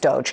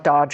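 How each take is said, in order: First: The word does not sound like dodge. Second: The word sounds like the English word dodge. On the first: The speaker calls it right. "it's Doge" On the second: The speaker calls it wrong. "he mispronounced Doge, it's not Dodge"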